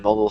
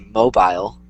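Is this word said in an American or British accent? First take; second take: American; British. First: It is said in an American accent. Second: It is said in a British accent. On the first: "I might say like" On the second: "they might say mobile, which is way different"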